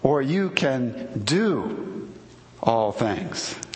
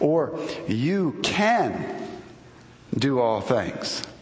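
First: The stress is on the word do. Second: The stress is on the word can.

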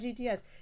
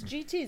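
First: It is said as three letters, G-T-S. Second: It is said as G-T with a final s. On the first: The brand name is an initialism. The speaker calls it wrong. "It's not GTS" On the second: The brand name is possessive. The speaker calls it right. "It's GT apostrophe S"

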